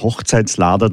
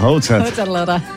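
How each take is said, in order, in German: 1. Ein s-Laut verbindet die beiden Teile. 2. Kein s-Laut verbindet die beiden Teile. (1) "Hochzeitslader darf ich nicht sagen" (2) "Ganz klampert Hochzeitlader. So genau"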